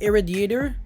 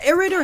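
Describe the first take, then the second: First: It sounds like one word, 'irradiator'. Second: It sounds like two words, 'air raider'. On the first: The speaker calls it right. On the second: The speaker calls it wrong.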